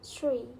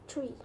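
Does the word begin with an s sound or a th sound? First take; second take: s sound; th sound. First: The word begins with an s sound. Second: The word begins with a th sound.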